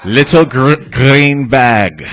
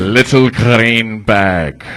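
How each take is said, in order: First: First try at a Russian accent, louder; hard syllables, Russian accent attempt. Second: Very slow Russian accent, hard syllables. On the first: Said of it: "I just learned how to do a Russian voice". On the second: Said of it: "go hard on the syllables, and then you roll the R's". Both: Shown as a demonstration.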